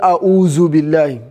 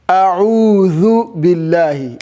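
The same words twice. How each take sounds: First: The middle consonant is a buzzing 'z' sound. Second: The middle consonant is a soft 'th' sound. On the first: The speaker calls it wrong. "It's not" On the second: The speaker calls it right. "is this one"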